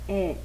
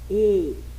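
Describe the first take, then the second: First: The vowel is open, with the mouth wider. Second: The vowel is closed, with the mouth narrower. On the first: "a letra E tem som aberto" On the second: "a letra E tem um som fechado"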